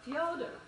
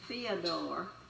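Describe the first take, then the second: First: The first syllable has a 'yo' sound. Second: The first syllable has a plain 'ee' vowel. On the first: The speaker calls it right. "they make the E into a yo sound" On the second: The speaker calls it wrong. "don't call him Fyodor"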